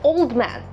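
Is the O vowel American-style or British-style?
British. The O vowel is the less rounded British one. The speaker calls it wrong. "He's not an old man"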